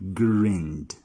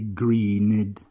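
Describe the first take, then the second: First: The ending is a plain D sound. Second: The ending is an extra 'id' syllable. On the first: The speaker calls it right. "The ed sound is going to sound as D" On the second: The speaker calls it wrong. "never are you going to say"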